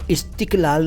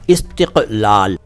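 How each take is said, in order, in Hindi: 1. बीच का व्यंजन सामान्य सामने का k है। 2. बीच का व्यंजन गहरा गले का q है। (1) "इस्तिक़लाल नहीं" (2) "इस्तिक़ क क क बोलिए"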